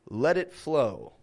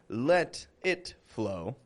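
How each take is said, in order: First: The words run together, with a soft flapped T. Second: The words are separated, with a clear T sound. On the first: The speaker calls it right. "It's almost as if it's one word" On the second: The speaker calls it wrong. "I'm not saying"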